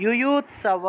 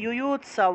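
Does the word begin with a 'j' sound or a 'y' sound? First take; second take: y; y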